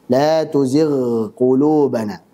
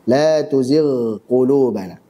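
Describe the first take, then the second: The two takes are said the same way.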